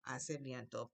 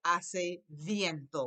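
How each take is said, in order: First: Softer repeat. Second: Very slow "Hace viento", drawn out; slow model phrase. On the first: Teacher repeats the phrase quietly for the class. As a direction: lower and softer "Hace viento". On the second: Teacher models "it's windy" slowly. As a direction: stretch each syllable for learners. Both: Shown as a demonstration. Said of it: "I say".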